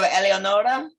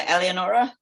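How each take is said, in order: First: The vowels sound closer to Italian ones. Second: The vowels sound English rather than Italian. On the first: The speaker calls it right. "That's right" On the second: The speaker calls it wrong. "did I pronounce that one right?"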